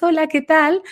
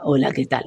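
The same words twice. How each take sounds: First: Greeting pitched up high and thin; high, disconnected voice. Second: Greeting lower and softer, muffled; dull, opaque voice. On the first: Voice coach showing a client's high disconnected voice. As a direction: chirp it up high, as if nobody's home. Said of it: "muy altas, muy agudas". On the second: Voice coach showing how a Bea sounds, opaque and low. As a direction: let it sink, dull and dim. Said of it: "la voz está opaca". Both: Shown as a demonstration.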